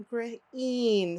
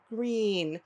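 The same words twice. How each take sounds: First: GREEN broken into gr, then een; sounded out. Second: Said in the usual way. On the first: Shown as a demonstration. Teacher models long E in green, sounded out. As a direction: split "Green" before its long E. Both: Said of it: "Say it with me".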